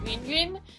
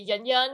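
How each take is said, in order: First: The name is said with its native Chinese sound. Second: The name is said with an English-like sound. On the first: This is how the name really sounds. "it's actually pronounced as Yun Yun" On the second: This is how non-Chinese speakers usually say it. "a lot of people just would say Yun Yun"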